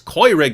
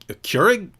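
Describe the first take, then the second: First: The 'eu' is said with the German sound. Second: The 'eu' is said without the German sound. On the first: "Don't you know what the sound that makes in German" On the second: "you mean a, a Keurig?"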